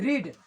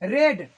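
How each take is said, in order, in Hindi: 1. स्वर लंबा है, 'reed' जैसा। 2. स्वर छोटा है, 'red' जैसा। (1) "ये हो गया वी वन" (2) "लेकिन ये बन जाता है वी टू"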